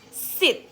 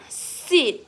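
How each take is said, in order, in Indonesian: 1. Vokalnya diucapkan pendek. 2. Vokalnya diucapkan panjang.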